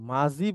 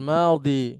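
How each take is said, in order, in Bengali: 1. মাঝের ব্যঞ্জনটি j ধ্বনি। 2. মাঝের ব্যঞ্জনটি d ধ্বনি। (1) "মাদ্রাসা এটাকে মাজি বলা হয়" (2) "এখানে লেখা আছে দেখবেন এভাবে"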